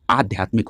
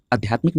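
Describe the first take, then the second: First: आध्यात्मिक begun with a long aa, aadhyatmik; correct first vowel. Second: आध्यात्मिक begun with a short a, adhyatmik; wrong first vowel. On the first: Teacher giving students the right form, आध्यात्मिक with long aa. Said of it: "आध्यात्मिक होता है". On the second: Teacher rejecting what students say, आध्यात्मिक with short first a. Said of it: "आध्यात्मिक नहीं होता है". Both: Shown as a demonstration.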